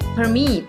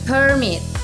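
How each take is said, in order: First: The stress is on the second syllable. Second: The stress is on the first syllable. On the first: It is used as a verb. "or on the second syllable" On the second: It is used as a noun. "can be stressed on the first syllable"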